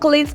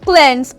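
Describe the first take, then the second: First: The vowel is a long ee sound. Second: The vowel is a short e sound. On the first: The speaker calls it wrong. "that's actually a wrong pronunciation" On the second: The speaker calls it right. "So instead of to say one cleanse"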